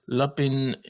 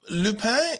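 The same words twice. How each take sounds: First: The name is pronounced the English way. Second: The name is pronounced the French way. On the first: The speaker calls it wrong. "you may have heard it referred to as Lupin" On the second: The speaker calls it right. "the way that I will choose to pronounce this to stay faithful to uh, the language"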